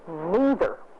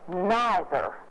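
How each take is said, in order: First: It is said the Missouri way. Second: It is said the Eastern way.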